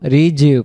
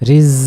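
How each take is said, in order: First: The consonant is a hard j sound. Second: The consonant is a soft buzzing z sound. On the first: The speaker calls it wrong. "তখন এটা জিমে রূপান্তরিত হয়ে গেল" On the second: The speaker calls it right. "জাও অক্ষর এরকম ঝির ঝির আওয়াজ হবে"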